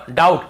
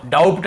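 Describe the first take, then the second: First: "डाउट" as daut, no b; silent B. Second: "डाउट" as daubt, with audible b; B wrongly sounded. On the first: Teacher models the right form for students, "डाउट" without b. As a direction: go straight from dau to t in "डाउट". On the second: Teacher shows what not to read, "डाउट" with b. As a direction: put a b before the t in "डाउट". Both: Shown as a demonstration. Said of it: "डाउट नहीं पढ़ेंगे".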